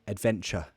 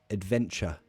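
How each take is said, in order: The two takes are said the same way.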